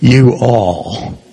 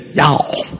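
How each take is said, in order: First: It is said as two separate words. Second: It is said as one contracted syllable. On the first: "you don't say you all" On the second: "You say y'all"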